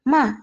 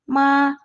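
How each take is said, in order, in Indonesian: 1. Diucapkan dengan nada keempat. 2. Diucapkan dengan nada kedua. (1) "nada keempat" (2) "Nada yang kedua"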